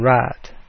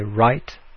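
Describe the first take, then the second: First: The vowel stays steady without a glide. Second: The vowel glides from one quality to another. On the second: "in Standard English, you'd say right"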